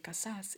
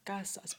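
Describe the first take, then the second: First: The stress is on the last syllable. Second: The stress is on the first syllable. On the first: The speaker calls it wrong. "you don't say casas" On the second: The speaker calls it right. "it's casas"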